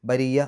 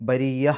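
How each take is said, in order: The two takes are said the same way.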